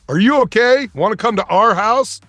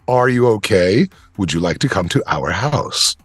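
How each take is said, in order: First: The words are run together casually and slurred. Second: Every word is carefully and crisply enunciated.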